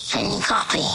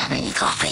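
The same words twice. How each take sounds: First: Said in the usual way. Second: Voiceless whispered call. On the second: Acted. Lion cub calling out over the radio, whispering. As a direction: breathe the question, no voice.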